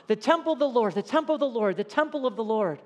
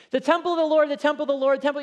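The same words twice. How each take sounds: First: Said in the usual way. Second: Higher, louder chant of the temple of the Lord; voicing the complacent people. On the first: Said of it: "That's what they're drawing comfort from". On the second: Preacher mimicking worshippers who trust the temple. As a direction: echo the people's smug slogan. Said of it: "Hebrews repeated things for emphasis".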